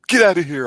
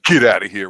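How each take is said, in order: First: It sounds hurt. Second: It sounds disgusted.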